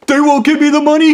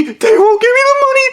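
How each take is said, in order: First: High whimpering complaint; mock high whimper; whiny panic. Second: Very high wailing repeat; mock high squealed wail; shriller panic. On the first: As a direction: whine it into the phone. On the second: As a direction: go up to a squeal of despair. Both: Blondie panicking on phone.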